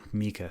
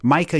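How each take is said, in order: First: Mika said MEE-kah, softer; quiet MEE-kah correction; correcting himself with an apology; corrected name. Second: Micah said MY-kah; MY-kah by mistake; slipping back to the wrong name; slip of the name. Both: Real, not acted. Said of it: "Mika, sorry".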